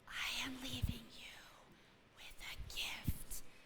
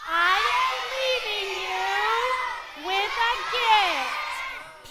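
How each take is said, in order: First: It is said in a quiet whisper. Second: It is said in a big, loud voice.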